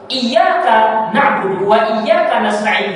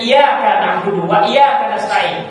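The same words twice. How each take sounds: First: The y sound in iyyaka is doubled. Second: The y sound in iyyaka is single. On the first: Only You we worship and only You we ask for help. The speaker calls it right. "dengan tasdid" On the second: The recitation is invalid and the meaning becomes disbelief. The speaker calls it wrong. "tanpa tasdid"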